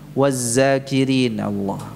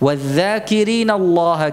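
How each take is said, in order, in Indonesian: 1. Konsonan kedua adalah bunyi z. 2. Konsonan kedua adalah bunyi dh yang lembut. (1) "Jadi diucapkan dengan zai" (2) "dzal itu ya, bukan zai"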